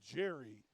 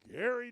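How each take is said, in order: First: The name begins with a soft J sound. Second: The name begins with a hard G sound. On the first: The speaker calls it wrong. "do not say Jerry" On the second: The speaker calls it right. "It's Gary, New York"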